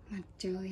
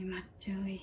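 First: Said in the usual way. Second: "mặt trời" whispered, no voice; whispered repeat. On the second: Shown as a demonstration. Repeating the word sun softly.

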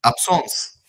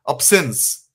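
First: Absence said the French way, ap-SONSS, nasal vowel, stress at the end; French sounds for Absence; French pronunciation. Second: Absence said the English way, AB-sence; English sounds for Absence; English pronunciation. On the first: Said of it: "French is?". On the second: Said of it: "Absence in English is". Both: Shown as a demonstration.

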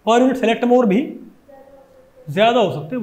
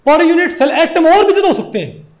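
First: Said in the usual way. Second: Said through a laugh; amused laughing restatement. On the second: Real, not acted. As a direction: chuckle while saying it. Teacher restates the point laughing.

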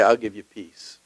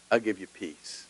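First: God's promise. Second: Hushed promise. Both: Retold or imitated. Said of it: "God will say".

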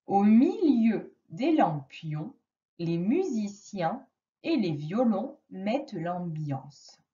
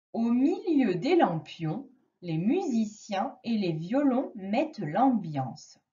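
First: The sentence reread slowly, "lampions" and "violons" drawn out; slow it right down so the child hears each sound; slower reread. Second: Each word laid out evenly; 1 slow clear reading. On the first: Teacher rereading to a child, slower. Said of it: "essaye de repérer les mots". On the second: Teacher reading aloud to a child, slow and clear. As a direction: read slowly for a child to spot sounds. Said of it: "je vais te lire une phrase". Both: Shown as a demonstration.

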